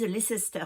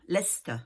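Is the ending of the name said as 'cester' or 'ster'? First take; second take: cester; ster. First: The ending is said in full as 'cester'. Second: The ending is reduced to a short 'ster'. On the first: The speaker calls it wrong. "ils disent Leicester, non, non" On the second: The speaker calls it right. "ça s'écrit avec Cester à la fin, hein, mais on dit Ster"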